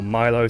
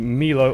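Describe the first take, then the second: First: The name is said with a non-European pronunciation. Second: The name is said with a European pronunciation. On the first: The speaker calls it right. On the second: The speaker calls it wrong.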